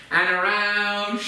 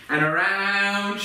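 Both takes have the same delivery.

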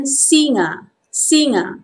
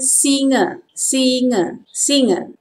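First: Formal "singa" with a full final A; careful "singa", open last vowel; formal Malay pronunciation. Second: Everyday "singa" ending in a schwa; informal Malay pronunciation. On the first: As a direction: say "singa" as si-ngah. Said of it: "Formal pronunciation". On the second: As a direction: say "singa" as si-nguh. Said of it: "Informal pronunciation". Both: Shown as a demonstration.

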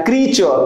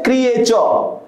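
First: क्रीचर in two syllables, kree-chuh; one long "ee" in क्रीचर; correct pronunciation. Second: क्रिएचर in three syllables, kri-ay-chur; common mispronunciation. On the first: Shown as a demonstration. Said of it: "जो सही है उसी को pronounce करना है।". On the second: Retold or imitated. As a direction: split the vowel in क्रिएचर into "i-ay". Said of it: "maximum लोग क्या pronounce करते हैं?".

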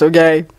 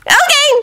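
First: Said in the usual way. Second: Very high-pitched, agreeable okay; agreeable Naruto. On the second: A narrator's reading. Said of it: "Naruto said agreeably".

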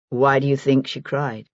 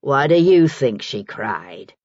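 First: Said in the usual way. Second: Slow, scornful echo of a question; lower, drawn-out mocking repeat. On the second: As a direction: throw the question back with slow disdain, leaning on "you". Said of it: "said Maggie scornfully".

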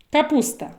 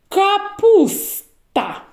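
First: Said in the usual way. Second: Капуста drawn out slowly, each sound clear; slow, stretched word. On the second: Shown as a demonstration. Teacher stretches the word for children to check for Н, slowly. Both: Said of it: "коли почуєте звук Н в словах".

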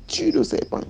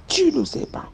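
First: High-pitched voiced order; high command. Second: High whispered command; whispered order. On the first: Nanny commanding the girl to kill the snake, high voiced. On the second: Retold or imitated. Nanny urging the girl to kill the snake, whispered. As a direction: urge it in a hush. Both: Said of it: "Elle me dit".

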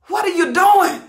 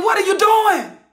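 First: Said in the usual way. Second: "What are you doing?" shouted higher, with "doing" falling hard; screaming. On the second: Real, not acted. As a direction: scream the question at them. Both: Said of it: "I'm screaming".

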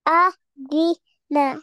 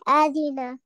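First: "Adina" slowly as a, di, na with gaps; learner's slow, separated "Adina"; syllable by syllable. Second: Said in the usual way. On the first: Shown as a demonstration. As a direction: spell out "Adina" one syllable at a time. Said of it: "read it alphabet by alphabet". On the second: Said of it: "After this, you make one word".

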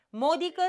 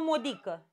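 First: "Modică" stressed on the first syllable MO. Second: "modică" stressed on DI. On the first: Teacher offers the first option, stress on MO. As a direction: hit MO at the start of "Modică". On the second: Teacher offers the second option, stress on DI. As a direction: move the stress of "modică" onto DI. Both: Shown as a demonstration. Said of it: "hai să vedem cum e".

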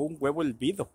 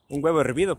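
First: "hervido" said as "elvido", L for R; "hervido" with its R turned into L; L in place of R. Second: Said in the usual way. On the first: Retold or imitated. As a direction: imitate a pal who can't roll the R in "hervido". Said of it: "no puede pronunciar la R". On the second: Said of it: "Un huevo hervido, pues".

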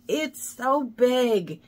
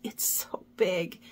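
First: Slow, stretched "It's so big"; slow drawn out. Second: Whisper. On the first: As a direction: drag out each word of "It's so big". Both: Real, not acted. Overwhelmed by huge project.

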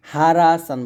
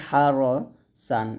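First: "হারা সান" with RAA in the middle; wrong open vowel. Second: "হার সান" said ha-RO-san; correct rounded vowel. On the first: Teacher shows pupils what not to say, open "রা". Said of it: "হারা সান বলবেন না". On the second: Teacher points pupils to the written form, rounded RO. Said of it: "এরকম". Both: Shown as a demonstration.

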